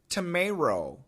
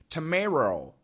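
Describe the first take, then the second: First: The middle T sounds like an R. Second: The middle T sounds like an R.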